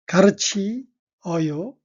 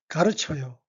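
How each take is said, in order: First: The vowels i and eo are pronounced separately. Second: The vowels blend together into one syllable, chyeo.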